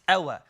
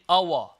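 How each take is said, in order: First: The opening sound is light and soft. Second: The opening sound is heavy and thick. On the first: The speaker calls it right. "Very uh, soft, very gentle" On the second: The speaker calls it wrong. "we must be careful not to say our"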